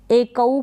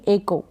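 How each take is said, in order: First: एकऊ drawn out in parts, "e-ka-oo"; wrong split pronunciation. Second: एको said smoothly as "e-ko"; correct pronunciation. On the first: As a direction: misread एकऊ slowly, sound by sound. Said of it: "इस तरीके से आप पढ़ दें, नहीं". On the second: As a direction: say एको in two syllables ending in "ko". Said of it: "नहीं, एको". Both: Shown as a demonstration.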